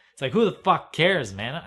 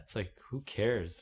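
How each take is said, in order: First: Much higher and louder, fed up; exasperated outburst. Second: Said in the usual way. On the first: Real, not acted. Ranting to camera about weather talk, exasperated shout. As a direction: blow up at the whole idea.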